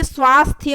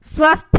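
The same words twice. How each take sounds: First: स्वास्थ्य with long aa; correct form. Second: स्वस्थ with short a; higher, ending on th without y in स्वस्थ; wrong form. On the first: Teacher correcting students, स्वास्थ्य as svaasthya. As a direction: end स्वास्थ्य on a clear thya. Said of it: "ये स्वास्थ्य होता है". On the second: Teacher showing the mistake, स्वस्थ as short svasth. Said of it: "स्वस्थ नहीं होता है". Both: Shown as a demonstration.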